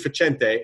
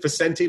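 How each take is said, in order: First: The name is said with an Italian pronunciation. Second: The name is said with an Americanized pronunciation. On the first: This is the original form of the family name. The speaker calls it right. "but it should be" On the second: This is how the family name is said in America. The speaker calls it wrong. "it's Americanized. They pronounce it"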